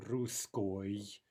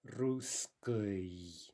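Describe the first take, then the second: First: Русской said the wrong way; wrong vowel. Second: Русской very slow and careful; drawn-out correct русской; correct form. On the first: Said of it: "It's not". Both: Shown as a demonstration.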